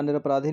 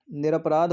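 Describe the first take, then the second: First: निरपराधी with an added final 'ee'; incorrect form. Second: निरपराध ending on 'dh', with no final vowel; correct form. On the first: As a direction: say निरपराधी as nir-ap-raa-dhee. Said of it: "नहीं होता". (निरपराधी के अंत में लंबी 'ई' बोलें) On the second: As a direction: say निरपराध as nir-ap-raadh. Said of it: "होता है". (निरपराध को 'ध' पर खत्म करें) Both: Shown as a demonstration.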